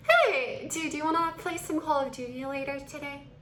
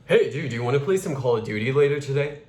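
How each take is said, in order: First: Elongated vowels. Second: Fast, run-together masculine delivery; brisk male-voiced question; quick male flow. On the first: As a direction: stretch the greeting, then ask lightly. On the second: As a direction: keep the vowels short and move briskly. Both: Shown as a demonstration. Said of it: "Completely different flow".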